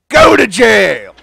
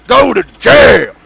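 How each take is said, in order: First: Loud, slow decree; slow loud mock verdict; mock sentence. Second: Higher, louder, slow shout; slow shouted mock verdict; shouted decree. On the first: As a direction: declare it like a judge. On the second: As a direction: bellow the sentence. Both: Sending customer to jail.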